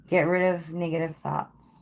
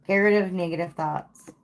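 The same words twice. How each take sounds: The two takes are said the same way.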